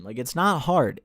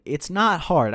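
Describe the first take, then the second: First: Said in the usual way. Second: "not" hit harder and louder; stress on not. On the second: Real, not acted. Vlogger repeating it to viewers, louder stress on "not". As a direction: punch "not" in "It's not hard".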